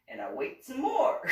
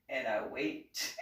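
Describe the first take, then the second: First: "more" lifted on a rising, exasperated tune; more waiting. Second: Slower and lower, dragging the words; drawn-out wait. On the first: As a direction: lean up into "more" with comic impatience. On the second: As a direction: let the boredom stretch the line out. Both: Retold or imitated. Waiting endlessly in office.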